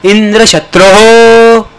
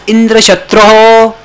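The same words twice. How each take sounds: First: The key vowel is said long. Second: The key vowel is said short. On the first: It asks for someone who is killed by Indra. The speaker calls it wrong. "the word that was uttered ... it was a long meter" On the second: It asks for someone who would kill Indra. The speaker calls it right. "is supposed to be uttered ... short meter"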